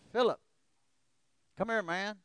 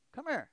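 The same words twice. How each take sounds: First: Loud call, higher, urging him over. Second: Sharp louder call, much higher. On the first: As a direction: shout across the yard to a friend. Friend calling him from outside. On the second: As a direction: insist he come over now. Friend calls him again. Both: Retold or imitated.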